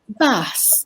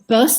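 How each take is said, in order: First: It is said in a southern English accent. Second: It is said in a Scottish accent. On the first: "If you're from the south, you might say bus" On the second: "in a Scottish accent"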